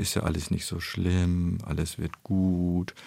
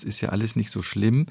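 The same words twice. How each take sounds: First: Drawn-out soothing words, slowing to the end; comforting. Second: Said in the usual way. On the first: Retold or imitated. Expert imitating someone consoling a fallen child, drawn-out and soothing. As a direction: stretch the vowels to console gently. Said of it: "ein kleines Kind trösten".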